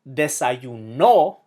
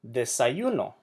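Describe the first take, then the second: First: The stress is on the last syllable. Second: The stress is on the second-to-last syllable. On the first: It means he ate breakfast. "puts the emphasis on the last syllable" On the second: It means breakfast. "It emphasizes the second to last syllable"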